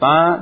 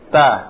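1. Bunyinya sengau, keluar lewat hidung. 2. Bunyinya oral, keluar lewat mulut. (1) "itu masuk hidung ya" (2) "Keluarkan lihat mulut"

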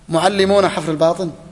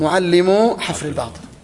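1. الكلمة الأولى تنتهي بصوت النون. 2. الكلمة الأولى تنتهي بدون صوت النون.

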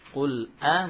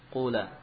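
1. Hamzah memisahkan qul dari vokal. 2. Hamzah dihilangkan dan qul menyambung.

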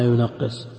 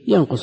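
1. يُقرأ مع تضعيف الحرف الأوسط. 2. يُقرأ على الثلاثي المجرد. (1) "وإذا ضعفناه" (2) "إذا قلنا الثلاثي متعدي بنفسه"

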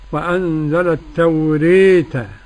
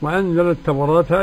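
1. الألف الممدودة تميل بقوة نحو الياء. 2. الألف الممدودة فتحة كاملة. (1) "كيف تكون الإمالة" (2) "للفتح"

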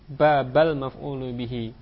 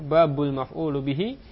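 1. Kata pertama berakhir dengan vokal 'a'. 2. Kata pertama berakhir dengan vokal 'u'. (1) "boleh pula dibaca dengan nasab, dengan fathah" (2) "boleh dibaca babu dengan rafa"

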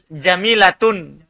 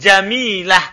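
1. Kata ini berakhir dengan akhiran 'tun' yang utuh. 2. Kata ini berakhir dengan bunyi 'h' yang pendek. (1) "Kalau mau lanjut" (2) "kalau ndak ya jamilah mati ha"

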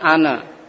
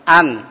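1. Ada vokal tambahan setelah n terakhir. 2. Kata ini berakhir tegas pada n. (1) "Bukan ana"

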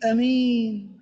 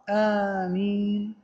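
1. الحركة الأولى قصيرة. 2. الحركة الأولى طويلة. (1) "وبالتخفيف أمين" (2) "القراءة المشهورة آمين"

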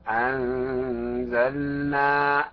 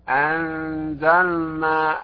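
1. اللام تُنطق بوضوح قبل النون. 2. اللام مُدغمة في النون.

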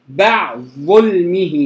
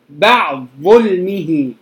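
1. تُحذف الحركة ويندمج الصوتان. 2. تُحذف الحركة ويندمج الصوتان.

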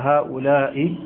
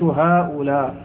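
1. تُنطق الكلمة بالمد. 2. تُنطق الكلمة بالقصر. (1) "بالمد والبناء على الكسر" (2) "وبالقصر"

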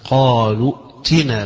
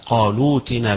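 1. الهمزة تُنطق همزة قطع. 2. الهمزة تُستبدل بصوت w. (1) "الجمهور على القراءة بالهمز" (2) "بنقل الهمزة واستبدالها بالواو"

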